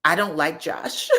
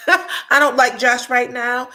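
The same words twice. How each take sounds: First: Said in the usual way. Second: Louder and slower, laughing through it; real laugh, louder and drawn out. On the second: Real, not acted. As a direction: laugh it out while saying it. Repeats line, then laughs.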